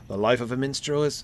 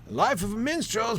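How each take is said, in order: First: It is read in the speaker's ordinary voice. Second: It is read in an old prospector character voice. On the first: The speaker calls it wrong. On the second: The speaker calls it right.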